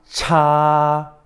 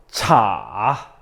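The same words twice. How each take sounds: First: It is said with the first tone. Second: It is said with the third tone.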